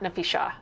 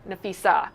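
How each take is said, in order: First: The name is said with an 'sh' sound. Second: The name is said with an 's' sound. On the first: The speaker calls it wrong. "they mispronounced Nafisa's name" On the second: The speaker calls it right. "it's Nafisa"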